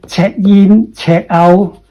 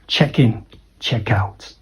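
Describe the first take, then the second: First: Each word is said separately without linking. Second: The words run together with linked sounds. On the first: The speaker calls it wrong. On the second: The speaker calls it right.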